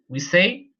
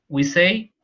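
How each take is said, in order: Both takes have the same delivery.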